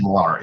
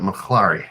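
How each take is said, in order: First: The name is said without an H sound. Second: The name is said with an H sound. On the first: "I'm thinking not. I'm just going to say Malari" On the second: "do I pronounce the H on it?"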